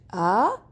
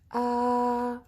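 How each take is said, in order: First: The pitch rises from low to high. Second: The pitch stays level and steady. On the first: "you start from down and you go you go suddenly up" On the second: "we have to keep our voice in the same line"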